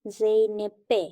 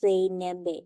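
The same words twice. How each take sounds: First: জেনেপে with an unvoiced p; correct P form. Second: জেনেবে with a voiced b; wrong B form. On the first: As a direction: keep the p hard in জেনেপে. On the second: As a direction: soften the p to b in জেনেবে. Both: Shown as a demonstration.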